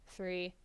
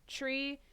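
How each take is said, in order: First: It begins with a th sound. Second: It begins with a plain t sound. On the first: This is the everyday way to say the number. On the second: This is the radio-procedure way to say the number.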